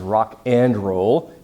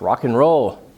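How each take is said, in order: First: The word 'and' is said fully and clearly. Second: The word 'and' is reduced to an n. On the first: The speaker calls it wrong. "Nobody says rock and roll" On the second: The speaker calls it right. "It's rock and roll"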